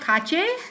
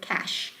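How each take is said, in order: First: It is said in two syllables, Indonesian style. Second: It is said in one syllable, rhyming with 'mash'. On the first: The speaker calls it wrong. "not kache, because kache is in Bahasa Indonesia" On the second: The speaker calls it right. "you can you say it with the word cash"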